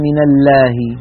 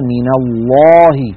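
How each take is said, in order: First: The L is light, with a thin clear sound. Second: The L is heavy, with a full hollow sound. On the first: The speaker calls it wrong. "ولا يقولون من الله" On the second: The speaker calls it right. "يفخمون هذه اللام فيقولون مثلا من الله"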